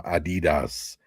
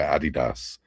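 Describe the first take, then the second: First: Adidas said the American way. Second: Adidas said the English way; British Adidas. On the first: Englishman comparing brand names, American Adidas. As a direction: say Adidas as "a-DEE-das". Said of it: "it's sort of like". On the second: Englishman giving his usual name, British Adidas. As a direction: say Adidas as "AD-i-das". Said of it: "We always call it". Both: Shown as a demonstration.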